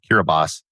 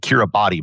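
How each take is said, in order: First: The 'ti' is said with an s sound. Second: The 'ti' is said with a t sound. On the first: The speaker calls it right. "it's actually pronounced Kiribati. There's no S in it, but it's pronounced like an S" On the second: The speaker calls it wrong. "Most people pronounce it Kiribati"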